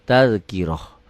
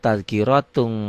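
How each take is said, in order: First: The word ends with an h sound. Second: The word ends with a t sound plus -un. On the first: The reciter stops on this word. "Tak marbutoh jika dihentikan bunyinya jadi ha" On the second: The reciter carries on to the next word. "Tapi tidak dihentikan"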